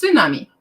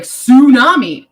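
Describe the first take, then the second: First: "tsunami" with a clear ts at the start; correct tsunami. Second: "Tsunami" said with a plain s sound, no t; the common wrong way, "Tsunami" as sunami. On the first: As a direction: stress the ts in "tsunami". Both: Shown as a demonstration. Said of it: "That is incorrect pronunciation".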